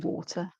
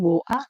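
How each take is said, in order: First: It is said in the speaker's own accent. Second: It is said in a London accent.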